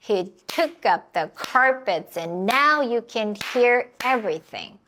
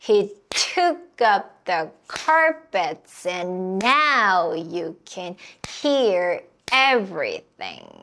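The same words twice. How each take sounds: First: The sentence is spoken faster, with words linked. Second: The sentence is spoken slowly, beat by beat. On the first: "조금만 더 빠르게 해볼게요" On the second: "천천히 박수를 치면서 해볼게요"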